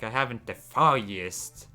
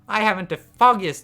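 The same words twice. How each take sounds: First: It is said with a sarcastic tone. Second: It is said plainly, without sarcasm. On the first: The speaker mocks the question. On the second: The speaker truly does not know.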